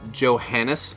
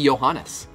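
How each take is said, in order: First: The name starts with a hard J sound. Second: The name starts with a soft Y sound. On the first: "I think that's how I'm saying it correctly" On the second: "The J is it's soft J, Like yogging"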